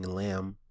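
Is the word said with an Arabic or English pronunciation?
English. It is said with an English pronunciation. The speaker calls it wrong. "instead of saying lamb"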